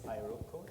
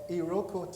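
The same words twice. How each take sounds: First: The name is pronounced the local way. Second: The name is pronounced the Nigerian way. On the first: "although it's Iroko here" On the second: "That's how we pronounce it in Nigeria"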